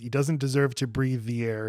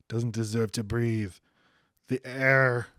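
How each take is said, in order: First: It is said without a long pause. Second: A long pause comes before "the air".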